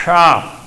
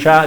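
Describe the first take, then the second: First: Sha with the a distorted by the lips; the wrong way, vowel bent by the consonant; changed vowel. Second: Sha with a plain natural a; the right way, a kept clean after sh; correct vowel. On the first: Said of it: "O sea, cambia la vocal". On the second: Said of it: "en vez de decir sha". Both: Shown as a demonstration.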